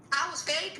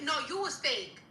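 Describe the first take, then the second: First: I WAS FAKE thrown back as a rising question; incredulous echo. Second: YOU stressed, then falling on "fake"; firm retort. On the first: Ranter answers an accusation of being fake, incredulous. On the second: Ranter turns the accusation on the accuser, firm retort. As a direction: turn it back with weight on "you". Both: Real, not acted.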